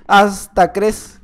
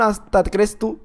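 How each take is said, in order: First: Hasta crees stretched very slowly; slow teasing Hasta crees; slow drawn-out. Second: Said in the usual way. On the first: Shown as a demonstration. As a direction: draw out Hasta crees mockingly.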